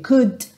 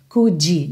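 First: The word stops on the D, no vowel after. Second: An extra vowel sound follows the final D. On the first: The speaker calls it right. "Pense como um sinal vermelho, para no D" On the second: The speaker calls it wrong. "uma vogal depois dessa consoante... não faça isso"

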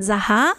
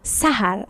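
First: The name begins with a voiced z sound. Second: The name begins with a voiceless s sound. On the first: The speaker calls it wrong. "in Deutschland sagen die meisten Sahar" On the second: The speaker calls it right. "aber richtig heißt der Sahar. Also wie vom Bus, das S"

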